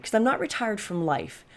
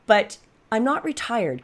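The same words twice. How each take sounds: First: Said in the usual way. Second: "not" stretched out slowly and leaned on, higher pitch; "not" drawn long and slow; stress on not. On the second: Real, not acted. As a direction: lean into the word "not". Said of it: "'cause I'm not retired from life".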